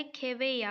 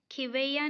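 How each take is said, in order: First: खेवैया starting "khe"; खेवैया with long e first; correct e vowel. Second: खिवैया starting "khi"; खिवैया with short i first; wrong i vowel. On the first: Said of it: "होता है". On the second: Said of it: "नहीं होता है". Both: Shown as a demonstration.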